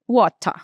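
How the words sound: The T is crisp; the final R nearly disappears. "o T é mais nítido e o final desaparece"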